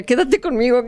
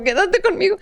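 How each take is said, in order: First: A quoted plea, a bit higher; begging someone to stay; pleading. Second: The same plea much higher, near breaking; desperate high plea. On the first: Frightened bride begging the servant to stay, mild plea. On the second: Bride begging the servant a second time, much higher and desperate. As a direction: beg again, far more desperate. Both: Retold or imitated. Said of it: "porque él decía".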